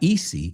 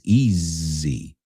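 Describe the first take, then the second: First: The middle consonant is a hissing s sound. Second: The middle consonant is a buzzing z sound. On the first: The speaker calls it wrong. "It's not easy" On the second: The speaker calls it right. "it's easy"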